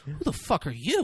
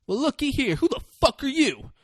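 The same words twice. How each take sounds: First: Retort. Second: High-pitched, taunting acted challenge; confrontational bully. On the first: Retold or imitated. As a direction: throw the question back quietly, amused. Retold lawyer answers the bully back. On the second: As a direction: size up the newcomer with mock menace. Retold bully turns on a newcomer.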